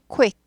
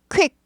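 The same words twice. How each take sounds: First: A short, quick 'oo' sound follows the k. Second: The k goes straight into the vowel. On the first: The speaker calls it right. "쿠를 되게 짧게 지나요. 근데 쿠가 들려야 돼요" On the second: The speaker calls it wrong. "quick 아니고 quick"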